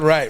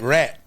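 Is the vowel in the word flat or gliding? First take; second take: gliding; flat. First: The vowel glides, as in 'ride'. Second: The vowel is flat, as in 'rat'. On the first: The speaker calls it wrong. "Not right" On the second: The speaker calls it right.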